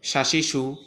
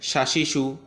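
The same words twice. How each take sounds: The two takes are said the same way.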